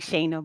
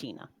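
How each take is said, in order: First: The first vowel sounds like 'ay'. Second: The first vowel sounds like 'ee'. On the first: The speaker calls it wrong. "It's spelled like Shayna" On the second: The speaker calls it right. "but it's pronounced Sheena"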